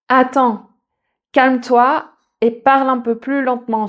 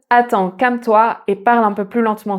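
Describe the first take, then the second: First: It is spoken at a normal, relaxed pace. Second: It is spoken very quickly, words run together.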